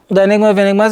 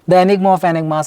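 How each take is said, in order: First: The words are mumbled and run together. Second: The words are clearly and fully articulated. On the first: The speaker calls it wrong. "Don't do like this" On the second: The speaker calls it right. "I'm trying to be more clearer so that you understand it"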